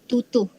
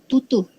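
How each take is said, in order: Both takes have the same delivery.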